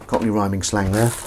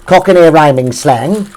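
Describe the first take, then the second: First: Said in the usual way. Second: Louder, slower and higher, like a grand announcement; proud announcement. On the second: Shown as a demonstration. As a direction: proclaim it slowly with pride.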